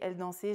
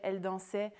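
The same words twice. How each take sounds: First: Mediterranean accent, with a closed final vowel. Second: Standard accent, with an open final vowel. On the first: "en français méditerranéen, on va dire" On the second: "En français standardisé, on va dire"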